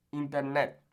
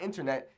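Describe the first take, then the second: First: "Internet" with pure Spanish vowels and tapped r; Spanish pronunciation. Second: "internet" with English vowels and r; English pronunciation. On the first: Teacher corrects the English version, Spanish pronunciation. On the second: Teacher shows learners what to avoid, English pronunciation. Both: Shown as a demonstration. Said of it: "Not internet".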